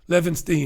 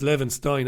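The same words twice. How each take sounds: First: The ending sounds like 'steen'. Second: The ending sounds like 'stine'.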